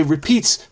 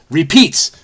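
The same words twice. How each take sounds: First: Said in the usual way. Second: "Repeats" punched louder, as a joke; emphatic repeat. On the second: Shown as a demonstration. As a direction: hit "Repeats" hard for emphasis. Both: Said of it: "repeats for emphasis".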